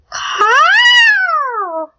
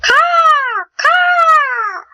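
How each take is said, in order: First: Crow caw. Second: Crow caw retry. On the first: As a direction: screech it out like a big glossy crow. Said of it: "cawed like a bird". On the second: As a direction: squawk twice like a crow, trying harder. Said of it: "That was terrible". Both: Acted.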